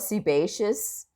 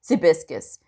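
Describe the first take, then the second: First: The word is said as se-bay-shus. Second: The word is said as sea-biscus. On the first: The speaker calls it right. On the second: The speaker calls it wrong.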